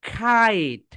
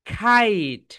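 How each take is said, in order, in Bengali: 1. প্রথম ব্যঞ্জনধ্বনিতে বাতাসের একটি জোরালো ফুৎকার আছে। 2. প্রথম ব্যঞ্জনধ্বনিতে বাতাসের একটি জোরালো ফুৎকার আছে।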